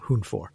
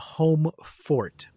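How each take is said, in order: First: The first syllable sounds like 'hoon'. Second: The first syllable sounds like 'home'. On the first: The speaker calls it right. "It's a Hunfor" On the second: The speaker calls it wrong. "they refer to it as the home the home fort, but that is that is incorrect"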